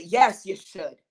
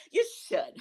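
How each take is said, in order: First: Said in the usual way. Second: Much higher, squeaky little repeat of "You should"; squeaky high echo. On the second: Pretend. Egging herself on to speak up, in a squeaky high voice. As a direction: pop it up high like a tiny cheering voice. Answering her own imagined question.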